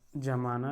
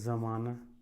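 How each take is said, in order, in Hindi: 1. शब्द j ध्वनि से शुरू होता है। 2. शब्द z ध्वनि से शुरू होता है। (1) "आप जमाना लिख लो" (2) "या फिर ऐसे ज़माना"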